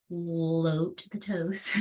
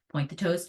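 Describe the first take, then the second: First: Slow floaty cue. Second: Said in the usual way. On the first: Shown as a demonstration. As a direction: float the toes drawn out very slowly.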